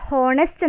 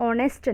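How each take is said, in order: First: ഹോണസ്റ്റ് said with a spoken h at the start; wrong pronunciation. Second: ഓണസ്റ്റ് said with a silent h, starting on o; correct pronunciation. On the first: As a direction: say ഹോണസ്റ്റ് with the h sounded, as the wrong version. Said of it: "ഹോണസ്റ്റ് എന്നല്ല". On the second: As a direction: say ഓണസ്റ്റ് starting straight on the vowel o. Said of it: "ഓണസ്റ്റ് എന്നാണ് വായിക്കുക". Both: Shown as a demonstration.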